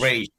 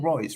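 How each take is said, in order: First: The vowel sounds like 'ay', ending in zh. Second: The vowel sounds like 'oy', ending in s. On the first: The speaker calls it right. "Talking about the pronunciation is Rage" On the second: The speaker calls it wrong. "I'm saying Royce, right?"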